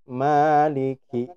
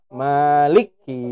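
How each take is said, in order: First: The l and k sit in separate syllables. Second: The l is joined directly onto the k. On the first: The speaker calls it right. "tapi maliki" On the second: The speaker calls it wrong. "maka tidak boleh dibaca maliki"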